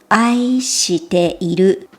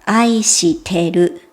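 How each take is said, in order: First: The full form is said with the 'i' sound. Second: The short form is said without the 'i' sound. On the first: "愛しているではなくて" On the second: "いを言いません。"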